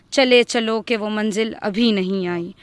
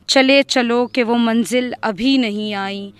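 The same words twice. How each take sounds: The two takes are said the same way.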